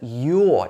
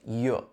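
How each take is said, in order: First: The word is said in its full form. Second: The word is said in a short, weak form. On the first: "here the you're" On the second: "changes to"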